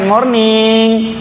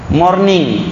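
First: The word is drawn out long. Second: The word is said short and quick. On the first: "Antum panjangkan morning" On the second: "Morning pendek"

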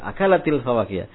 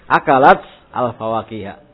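First: The two words are linked into one flow. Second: The two words are said separately, cut apart. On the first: "Akalatil, karena dia disambung" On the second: "Kalau mau diputus-putus"

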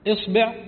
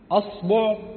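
First: The first vowel is an open a sound. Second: The first vowel is a rounded u sound. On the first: "بالفتح" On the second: "وبالدم"

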